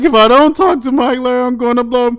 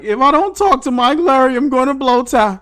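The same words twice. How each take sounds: First: Higher, louder, fast strained plea; mock desperate Julie. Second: Higher, louder strained plea; mock desperate Julie. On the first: Imitating Julie strained as if holding a fart. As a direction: push it out like you're about to burst. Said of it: "She like". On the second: Imitating Julie pleading for Mike, strained and louder. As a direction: squeeze it out like you're about to burst. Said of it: "She was like".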